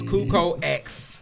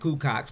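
First: The X is said as a separate letter. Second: The X is merged into one word. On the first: The speaker calls it right. "It's Kuko X" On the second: The speaker calls it wrong. "Taz like to call it Kukox, but that's not how you pronounce it"

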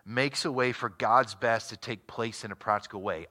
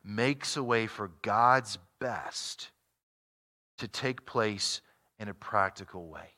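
First: The sentence is read at a normal pace. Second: The sentence is read very slowly.

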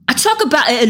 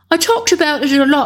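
First: It is spoken in an imitation Cockney accent. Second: It is spoken in a posh upper-class accent. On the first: "what an American thinks a Cockney accent sounds like" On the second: "let's make her posh"

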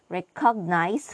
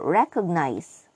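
First: It is said with Indian or Nigerian stress. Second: It is said with standard English stress. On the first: "the Indians and Nigerians say recognize" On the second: "for recognize"

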